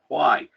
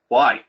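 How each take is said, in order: First: It sounds gentle and not threatening. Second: It sounds abrupt and a little threatening.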